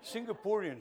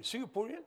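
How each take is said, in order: First: Said in the usual way. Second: Singaporean? asked with a rising, laughing lilt; questioning. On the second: Shown as a demonstration. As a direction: query the word with a chuckle.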